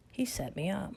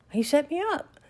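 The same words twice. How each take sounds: First: Said in the usual way. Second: Much higher, louder cry of disbelief; indignant outburst. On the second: Retold or imitated. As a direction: blurt it out, stunned and outraged. Realizing she was played.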